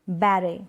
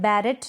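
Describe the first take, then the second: First: No t sound is pronounced at the end. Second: A t sound is pronounced at the end. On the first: The speaker calls it right. "हम पढ़ेंगे बैरे" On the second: The speaker calls it wrong. "अब यहाँ पर बैरेट नहीं पढ़ेंगे"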